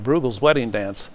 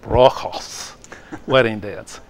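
First: Bruegel is said with an American Midwestern pronunciation. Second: Bruegel is said with a Flemish-style pronunciation. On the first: The speaker calls it wrong. "that's kind of a Midwestern pronunciation of Bruegel" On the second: The speaker calls it right. "actually Dutch Flemish, you would not pronounce the E and the U"

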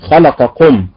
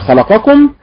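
First: The stress is on the vowel of lam. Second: The stress is on the vowel of mim. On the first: "أهل الصعيد أنهم ينطقونها في مثل خلقكم، فيقولون خلقكم" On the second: "بالضغط على حركة الميم"

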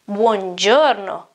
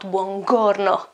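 First: The g is soft, sounding like j. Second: The g is hard, like in go. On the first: The speaker calls it right. "but you pronounce it G" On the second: The speaker calls it wrong. "and not"

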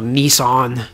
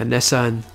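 First: Nissan is said with an American pronunciation. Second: Nissan is said with a non-American pronunciation.

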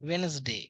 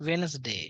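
No difference in how they are said.

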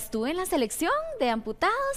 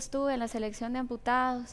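First: It is said with lively, upbeat energy. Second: It is said with flat, low energy. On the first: The speaker has a positive, contagious attitude. "Ella habla" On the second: The speaker conveys little enthusiasm. "No es lo mismo que"

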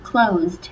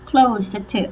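First: The word is said quickly and compactly. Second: The word is said slowly with stretched sounds. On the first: "แล้วก็พอพูดเร็วๆนะคะ" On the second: "ลองพยายามลากเสียงก่อนนะคะ"

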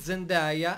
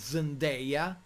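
First: The name is pronounced the Italian way. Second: The name is pronounced the foreign way. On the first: The speaker calls it wrong. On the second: The speaker calls it right.

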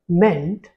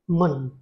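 First: The syllable has a full 'e' vowel, like 'meant'. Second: The syllable has a weak 'uh' vowel, like 'munt'. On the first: The speaker calls it wrong. "another common mistake is to speak it as meant" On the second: The speaker calls it right. "but it is actually munt. It has the schwa sound"

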